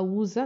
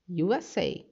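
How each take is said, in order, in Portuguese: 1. Lê-se como uma palavra só. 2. Lê-se como três letras separadas.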